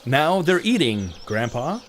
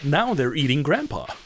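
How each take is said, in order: First: There is a pause before Grandpa. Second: There is no pause before Grandpa.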